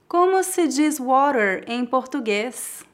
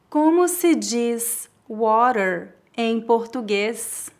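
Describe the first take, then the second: First: It is said at natural speed. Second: It is said very slowly. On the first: "2 vezes mais naturalmente" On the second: "Uma vez bem devagar"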